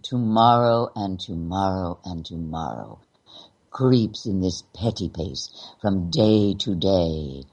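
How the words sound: The final phrase carries the heaviest emphasis. The meaning of the line gets lost. The speaker calls it wrong. "the last part of the line, petty pace from day to day, gets the emphasis"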